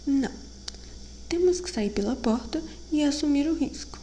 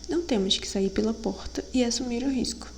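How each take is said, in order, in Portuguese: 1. Há uma pausa depois da primeira palavra. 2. A primeira palavra emenda direto na seguinte. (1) "É a entonação que faz a diferença" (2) "Não, errei"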